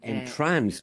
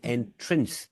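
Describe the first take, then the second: First: The second vowel sounds like a clear 'a'. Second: The second vowel sounds like a short 'i'. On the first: It says what the spelling says. The speaker calls it right. "rather than entrance, which is what it says" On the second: The spelling's sound is lost. The speaker calls it wrong. "we've turned that A into an, a lowercase I. And so people say entrince"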